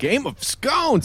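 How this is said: The phrase is said with loud, eager enthusiasm. "Say it like you love it"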